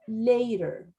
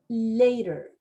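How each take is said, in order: Both takes have the same delivery.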